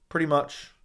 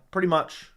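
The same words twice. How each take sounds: The two takes are said the same way.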